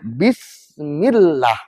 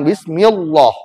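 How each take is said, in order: First: The lah is thin, with an a-like vowel. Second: The lah is thick, with an o-like vowel. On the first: The speaker calls it right. "timbullah huruf seperti A" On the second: The speaker calls it wrong. "bukan O"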